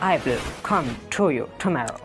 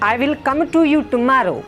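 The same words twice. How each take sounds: First: The sentence is said with an English accent. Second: The sentence is said with a Pakistani accent. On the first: "But in English" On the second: "We say tomorrow"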